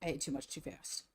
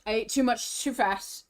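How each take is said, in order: First: Much softer and lower, muttered to herself; low quiet mutter. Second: Said in the usual way. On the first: Real, not acted. Streamer muttering to herself after overeating, quiet and low. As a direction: mumble it under your breath. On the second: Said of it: "I ate too fast and too much".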